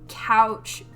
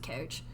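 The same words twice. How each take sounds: First: The vowel sounds like standard American speech. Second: The vowel sounds Canadian, like an Irish or Canadian speaker. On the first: "I can say it normally if I really try" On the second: "just naturally, I pronounce it couch"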